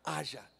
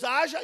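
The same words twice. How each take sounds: First: Said in the usual way. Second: Haja called out loud and rising; booming Haja. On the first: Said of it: "O que que ele falou?". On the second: Shown as a demonstration. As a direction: proclaim Haja like God's command. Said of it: "Então disse Deus".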